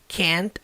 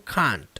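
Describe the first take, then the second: First: It is said with a non-British vowel. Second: It is said with a British vowel.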